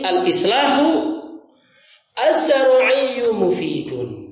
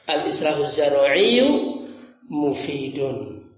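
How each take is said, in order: First: The pause comes after the first word. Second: The pause comes after the second word. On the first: The last two words together are the predicate. The speaker calls it wrong. "Kalau ini" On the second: Only the last word is the predicate. The speaker calls it right. "Kan begitu cara baca potongnya"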